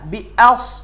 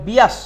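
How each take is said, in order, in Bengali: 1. একটি গ্লটাল ক্যাচ দুটি সিলেবলকে আলাদা করে। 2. স্বরটি গ্লটাল ক্যাচ ছাড়াই গড়িয়ে ঢোকে। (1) "আসলে উচ্চারণটা আসবে বি আ" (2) "হামজাটা হারিয়ে ফেলি"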